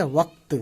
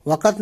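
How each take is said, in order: First: "وقت" as one syllable, waqt; correct pronunciation. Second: "وقت" as two syllables, wa-qat; wrong pronunciation. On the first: Teacher giving learners the proper form, "وقت" said waqt. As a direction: close "وقت" on q-t with no vowel between. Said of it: "تے پہ آواز ختم کر دینی ہے". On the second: Teacher warning learners off a mistake, "وقت" said waqat. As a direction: put an extra a before the t in "وقت". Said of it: "نہیں پڑھنا ہے". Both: Shown as a demonstration.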